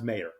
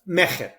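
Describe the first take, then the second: First: The name is said with no guttural sound. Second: The middle consonant is a throaty guttural sound. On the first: This is a simplified version that people do not get wrong. "when I do my T V appearances and podcasts ... it all of a sudden becomes Mayor" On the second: This is the accurate original pronunciation of the name. "the right way ... phonetically accurate is Mecher ... It's a guttural sound"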